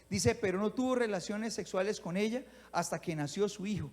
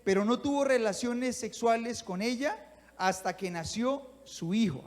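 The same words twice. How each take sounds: First: Said in the usual way. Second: Slow, stretched, leaning on tuvo; slow emphatic reading. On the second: Shown as a demonstration. Preacher reading the verse to the congregation, slow and emphatic. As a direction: draw out pero no tuvo relaciones, weighing each word. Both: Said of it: "Hagamos una pausa aquí".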